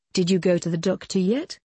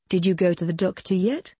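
The two takes are said the same way.

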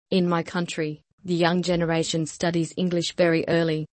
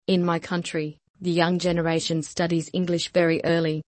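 Both takes have the same delivery.

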